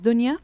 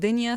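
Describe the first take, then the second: First: The first vowel sounds like 'u'. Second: The first vowel sounds like 'i'. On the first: "sometimes dunya" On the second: "sometimes we pronounce it dinya"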